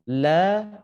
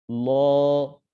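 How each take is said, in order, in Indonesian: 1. Suku kata ini berbunyi tipis dengan vokal yang ringan. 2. Suku kata ini berbunyi tebal dengan vokal yang lebih gelap. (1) "ini tipis" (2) "ketika kita naikkan pangkal lidah menjadi tebal"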